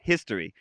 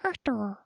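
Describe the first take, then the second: First: Said in the usual way. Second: High, soft mumbled "History"; toddler mumbling. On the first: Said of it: "I said that". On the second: Retold or imitated. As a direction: mumble it like a two-year-old. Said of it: "She mumbled it".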